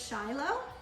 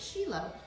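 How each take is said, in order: First: The name is said as read from English spelling. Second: The name is said the way locals pronounce it. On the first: "the word says Shiloh" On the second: "but they pronounce it Shiloh"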